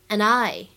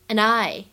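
First: The two words are linked into one. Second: The two words are linked into one.

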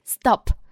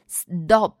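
First: The consonant after s is an unaspirated voiceless t. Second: The consonant after s is a voiced d. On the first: The speaker calls it right. "而是stop，这个do 就是不送气的清辅音" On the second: The speaker calls it wrong. "并不是stop"

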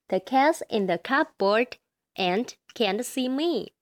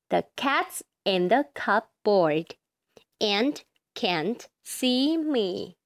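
First: It is read faster. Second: It is read slowly.

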